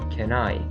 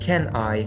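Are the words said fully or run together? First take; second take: reduced; full. First: The words are linked with a reduced vowel. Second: Both words are said fully and separately. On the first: The speaker calls it right. "but can I" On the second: The speaker calls it wrong. "Not can I"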